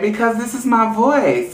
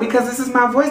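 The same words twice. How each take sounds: First: It is said in a lower voice. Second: It is said in a higher voice.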